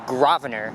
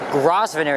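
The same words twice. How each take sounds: First: The S sound is left silent in the name. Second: The S sound is pronounced in the name. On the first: The speaker calls it right. "but the S is silent. ... it's actually Grosvenor" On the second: The speaker calls it wrong. "It's not Grosvenor"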